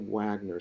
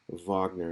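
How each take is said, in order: First: The name begins with a W sound. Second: The name begins with a V sound. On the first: The speaker calls it wrong. "don't say Wagner" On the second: The speaker calls it right. "in German the W's are pronounced as V"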